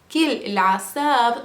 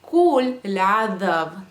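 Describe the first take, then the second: First: The first word is said in the dialect form. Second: The first word is said in the standard form. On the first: "here he is pronouncing it with an accent" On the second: "if you were going to say it in standard Arabic"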